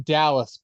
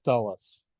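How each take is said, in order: First: Said in the usual way. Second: Dulles said with a short uh vowel, mocking a British Dallas. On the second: Teasing the wrestler's accent: mock British Dulles. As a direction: say Dulles the way the Brit says Dallas. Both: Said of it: "me making fun of his accent".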